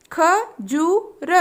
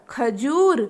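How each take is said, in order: First: खजूर stretched very slowly, syllable by syllable; slow drawn-out word. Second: Said in the usual way. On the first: Shown as a demonstration. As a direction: draw out खजूर for children. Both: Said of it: "तीन वर्ण वाले शब्द".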